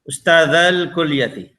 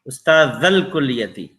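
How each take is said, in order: First: The vowel before al is stretched. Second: The vowel before al is short. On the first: It refers to two teachers. "a little stretch" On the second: It refers to one teacher. "straight now you can see here without this alif"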